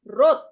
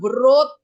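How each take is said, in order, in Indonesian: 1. Bunyi w-nya hilang; katanya dimulai dengan r. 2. Di awalnya ada bunyi w sebelum r. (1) "W-nya hilang" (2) "cara bacanya bukan wrote"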